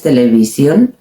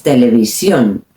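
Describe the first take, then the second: First: "televisión" stressed near the start, TE-le-vi-sion; "televisión" with English-like stress, final syllable weak; wrong early stress. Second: "televisión" as te-le-vi-SYON; "televisión" low, ending on a strong -sión; accent on last syllable. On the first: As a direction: take the weight off the end of "televisión". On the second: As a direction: lean on the final syllable of "televisión". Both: Shown as a demonstration. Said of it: "Again, accent".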